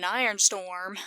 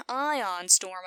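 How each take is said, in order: First: "iron storm", with ion coming out like iron; accent slip on ion. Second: Said in the usual way. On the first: Real, not acted. Viewer defending Kirk about the computer, ion slipping into "iron". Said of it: "my accent keeps wanting to say iron". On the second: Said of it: "I mean".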